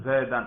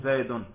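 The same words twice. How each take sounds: First: زیدن said as "zaidan", ending in -an; زیدن ending "-dan"; accusative ending -an. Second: زیدن said as "zaidun", ending in -un; زیدن ending "-dun"; nominative ending -un. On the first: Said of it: "نصب پہ تلفظ کرو". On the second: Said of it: "رفع پہ تلفظ کر کے دکھاؤ". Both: Shown as a demonstration.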